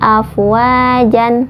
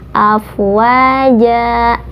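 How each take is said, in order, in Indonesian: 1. Kata ini berakhir dengan bunyi n. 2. Kata ini berakhir dengan vokal a yang dipanjangkan. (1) "tidak afwajan" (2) "patah yang dipanjangkan dua harokat"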